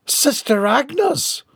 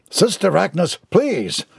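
First: High, drawn-out alarmed cry; yelp. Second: Slightly higher, helpless plea; calling out impotently. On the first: The postmaster sees the nun collide, yelping. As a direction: yelp it, rising at the end. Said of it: "the postmaster yelped". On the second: The postman begs the fleeing nun, helpless. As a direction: plead without any real force. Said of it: "the postman called out impotently". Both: A narrator's reading.

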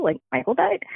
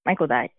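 First: Retold disbelief, pitch climbing high at the end; incredulous question. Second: Said in the usual way. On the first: Daughter voicing her father hearing of the death, incredulous. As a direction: ask it rising, unable to believe it.

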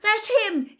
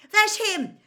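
First: High, loud thrilled shout again; excited yell repeated. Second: High, loud thrilled shout; excited yell. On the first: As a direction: keep shouting at your hero. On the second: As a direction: point out your hero. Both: A narrator's reading. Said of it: "yelled Ron".

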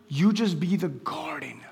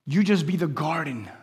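The two takes are said the same way.

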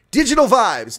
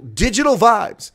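First: Big booming announcement of the name; loud announcement. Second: Drawn-out booming headline; slow loud proclamation. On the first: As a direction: proclaim it like a headline. Announcing scandal name dramatically. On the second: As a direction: stretch it out and boom it. Repeats scandal name dramatically. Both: Acted.

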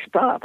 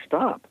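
First: Very high, sudden halt; sharp stop. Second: High, clipped interruption; sharp stop. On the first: Priest stopping a penitent mid-confession, sharp high stop. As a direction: cut him off again, firmer. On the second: Priest halting a man's confession, sharp high stop. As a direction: cut the penitent off sharply. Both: Retold or imitated.

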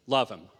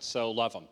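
First: Love leaned on, louder and slow; stress on Love. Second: Said in the usual way. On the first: Shown as a demonstration. Pastor repeats his plea to the congregation, louder with weight on Love. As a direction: press the word Love home firmly. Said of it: "make sure that you hear it clearly". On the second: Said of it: "I'm gonna say that again".

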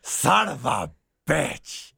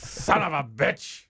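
First: Very slow, drawn-out boss growl; Vince McMahon impression. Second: Slow drawn-out growl of a wrestling boss; Vince McMahon impression. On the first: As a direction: drag every word out like the wrestling chairman. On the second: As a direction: stretch each word like an angry promoter. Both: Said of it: "we were doing Vince McMahon".

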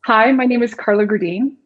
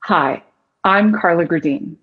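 First: Slightly raised, tense introduction voice; nervously pitched-up greeting; nervous higher tone. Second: Low, grounded, confident introduction; warm, competent radio-style hello, pitched down; lower soothing tone. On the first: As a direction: introduce yourself a little too high, as if nervous. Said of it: "speak in just a little bit of a higher tone". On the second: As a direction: pause after the greeting and let the voice settle down. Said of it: "you have that lower soothing tone". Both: Shown as a demonstration.

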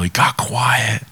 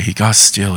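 First: Slow whisper, as if falling silent. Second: Said in the usual way. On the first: Shown as a demonstration. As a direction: let "quiet" fade into a breathy hush.

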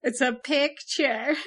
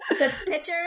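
First: Flat Midwestern a in picture; Midwest accent. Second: Put-on Midwest accent. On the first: Acted. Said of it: "Midwest accent, here it is". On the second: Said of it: "make fun of her Western accent".

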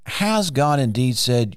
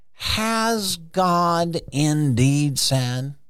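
First: Said in the usual way. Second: Drawn out slowly, rising like a tempter; sly serpent. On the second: Retold or imitated. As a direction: stretch it like a sly snake questioning. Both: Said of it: "I don't know if he talked like that".

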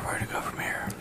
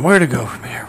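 First: Whispered echo of the question; mock-secret whispered repeat. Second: Said in the usual way. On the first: Shown as a demonstration. Line repeated then whispered.

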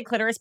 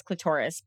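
First: Clitoris as "KLIT-er-is"; stress on first syllable. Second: Clitoris as "kluh-TOR-is"; stress on second syllable. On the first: Host giving their own pronunciation, clitoris as "KLIT-er-is". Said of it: "I think I just say clitoris". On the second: Host giving a friend's pronunciation, clitoris as "kluh-TOR-is". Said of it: "but my friend says clitoris". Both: Shown as a demonstration.

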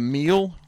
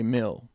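First: Said in the usual way. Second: Short-vowelled "mill"; wife's pronunciation. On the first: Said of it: "She would say, instead of meal". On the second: Retold or imitated. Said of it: "she'd say mill".

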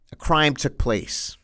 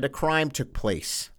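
First: "a crime took place" slow, with weight on "crime"; grave slow statement; slow emphatic. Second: "A crime took place" again, slow and much softer; hushed grave restatement; softer slow repeat. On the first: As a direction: lay down "crime" deliberately. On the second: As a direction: drop the volume, lean on "crime". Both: Shown as a demonstration. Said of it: "Yes, I said it".

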